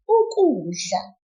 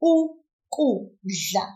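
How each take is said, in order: First: Said in the usual way. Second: Ukudla slowly and carefully; slow model word. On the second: Shown as a demonstration. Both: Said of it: "Now you try".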